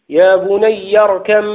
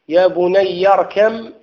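The two takes are said the same way.

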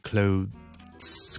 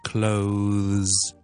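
First: The word has a short break in the middle. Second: The word flows smoothly with no break. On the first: The speaker calls it wrong. "我需唔需要中間停一停咧？使唔使clothes 咁樣咧？咁個答案咧係唔需要嘅" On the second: The speaker calls it right. "中间咧系唔需要停顿嘅"

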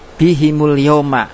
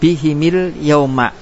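First: The m is followed by an u vowel. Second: The m is followed by an i vowel. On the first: "harokat dhamma" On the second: "boleh juga kasro"

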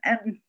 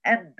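First: The m sounds muffled with the nose blocked. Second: The same.

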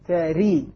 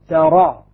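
First: The final vowel is a full i sound. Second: The final vowel is a fully open a. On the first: "كسر" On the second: "فتح"

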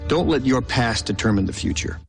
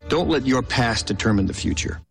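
The two takes are said the same way.

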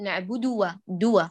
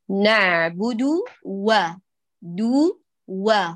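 First: The vowel after d runs into the w. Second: The vowel after d is kept apart from w. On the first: The speaker calls it wrong. "لا تدمجي ضمة الدال في الواو المجاورة" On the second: The speaker calls it right. "اعملي فصل بينهما"

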